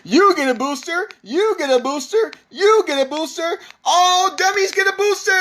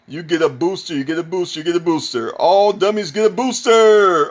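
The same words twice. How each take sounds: First: It is proclaimed loudly with big excitement. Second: It is read in a plain, flat way.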